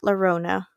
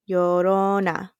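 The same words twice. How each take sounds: First: The name begins with an L sound. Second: The name begins with a Y sound. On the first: The speaker calls it wrong. "Not Llorona" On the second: The speaker calls it right. "The like with a Y"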